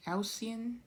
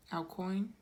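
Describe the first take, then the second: First: "Alcyon" tried with an s sound in the middle, higher; unsure pronunciation. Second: "El Coin" with a hard k, Coin like the money, rising; unsure pronunciation. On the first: Card reader trying another reading of the name, unsure pronunciation. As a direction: sound out "Alcyon" as a higher-pitched, tentative guess. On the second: Card reader going back to the first guess, unsure pronunciation. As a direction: try "El Coin" as two words, questioning at the end. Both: Real, not acted. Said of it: "don't know how to pronounce that".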